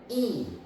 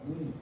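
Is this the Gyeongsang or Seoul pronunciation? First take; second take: Gyeongsang; Seoul. First: It is said with a distinct pitch contour. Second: It is said with a flat, level pitch. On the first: Pitch keeps the number and the letter apart. "경상도 쪽에 가면은 이 이거 읽으면 이 이렇게 읽어요" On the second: The number and the letter sound the same. "서울 사람들이나 뭐 그거 물어보면 이거 읽어봐야 이"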